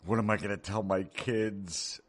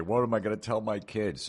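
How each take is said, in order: First: Slow, higher mock lament; mock whiny parent. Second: Higher mock despair; lightly hammed-up worried parent; mock whiny parent. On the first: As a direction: whine it like a hand-wringing parent. Mocking whiny liberal parent. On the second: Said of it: "and the next day".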